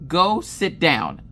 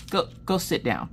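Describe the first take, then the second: First: Slow, emphatic mock command; hammed-up exasperated repeat; retold firm order. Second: Restrained mock-weary dismissal; understated exasperated command; retold weary order. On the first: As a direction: draw out each word sternly. Husband repeats order more firmly. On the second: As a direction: send them away with tired patience. Husband's weary order, first take.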